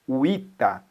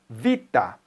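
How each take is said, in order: First: The word begins with a u sound. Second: The word begins with a v sound. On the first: "lido assim, ó, uita" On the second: "a palavra vita"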